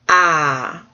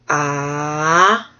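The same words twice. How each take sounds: First: The pitch falls sharply from high to low. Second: The pitch dips down then rises again. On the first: "did I do the down one?" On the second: "another one that like dips, and that's the third tone"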